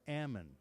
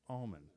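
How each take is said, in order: First: It is said as people north of Sacramento say it. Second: It is said as people south of Sacramento say it.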